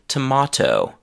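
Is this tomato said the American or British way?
British. It is said with a British accent. "in Britain they say tomato"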